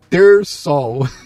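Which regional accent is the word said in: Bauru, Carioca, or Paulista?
Bauru. It is said in a Bauru regional accent. "Olha como se fala em Bauru"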